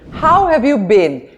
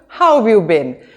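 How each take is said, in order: First: The word 'have' is said in full. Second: The word 'have' is contracted onto 'how'.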